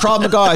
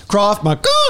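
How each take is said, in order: First: It is said in an ordinary speaking voice. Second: It is said in a honking, horn-like voice. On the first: The speaker calls it wrong. "It's not" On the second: The speaker calls it right. "Like a horn"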